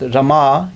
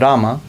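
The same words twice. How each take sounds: First: The final vowel is held long. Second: The final vowel is cut short. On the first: It names the goddess of fortune. "this is the goddess of fortune also" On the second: It names Lord Ram. "Rama is Lord Ram"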